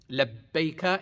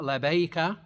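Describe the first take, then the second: First: The b sound is held and stressed hard. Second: The b sound is short and light. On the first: The speaker calls it right. "The emphasis on the b, b sound, and stress it hard" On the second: The speaker calls it wrong. "it's not labaika"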